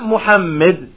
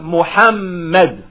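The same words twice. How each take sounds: First: The middle syllable has an i vowel. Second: The middle syllable has an a vowel. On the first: The speaker calls it wrong. "It's not with a kasra" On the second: The speaker calls it right. "it's with a fatha on the middle letter"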